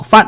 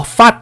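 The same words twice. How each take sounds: First: "fat" with an open "ae", as in cat; "fat" said with "에", never "ah"; correct "ae" vowel. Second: "fat" with an open "ah", like faht; "fat" said with Korean "아"; wrong "a" vowel. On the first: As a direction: model "fat" with a short English "ae". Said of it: "fat 이렇게 발음하는지 알겠죠". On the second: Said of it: "이렇게 발음 안 하고". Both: Shown as a demonstration.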